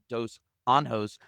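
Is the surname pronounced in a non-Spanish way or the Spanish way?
Spanish. The surname is said with a Spanish pronunciation. The speaker calls it wrong. "I would normally say this in Spanish"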